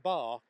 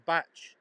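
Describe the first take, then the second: First: "bark" with a hard k ending; "bark" ending in k, without tch; spelling pronunciation. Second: "batch" with a tch ending; "batch" rhyming with match, without k; local pronunciation. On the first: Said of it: "it's spelt like bark". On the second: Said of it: "but we say sand batch". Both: Shown as a demonstration.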